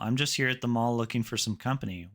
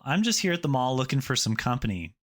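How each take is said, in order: First: The delivery sounds neutral and plain. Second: The delivery sounds confident and assured. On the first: The listener could go either way. "first time you felt kind of neutral" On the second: The speaker seems fun to spend time with. "much more confident"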